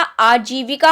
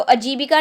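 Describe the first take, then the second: First: आजीविका said slowly with a long aa, aajivika; correct form. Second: अजीविका said with a short a, ajibika; wrong form. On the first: Teacher giving students the right long aa, slow आजीविका. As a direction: slowly, hold the opening aa of आजीविका. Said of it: "जा पे बड़ी की मात्रा". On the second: Teacher showing students the wrong short a in अजीविका. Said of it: "अजीविका नहीं होता". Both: Shown as a demonstration.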